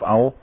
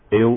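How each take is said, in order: First: The vowel is an 'ah' sound. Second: The vowel is an 'eh' sound. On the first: The speaker calls it right. "maar eigenlijk moet je zeggen Aloeim of al" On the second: The speaker calls it wrong. "het wordt vaak uitgesproken als El"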